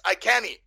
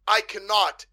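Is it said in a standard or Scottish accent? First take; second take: Scottish; standard. First: It is said in a Scottish accent. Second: It is said in a standard accent.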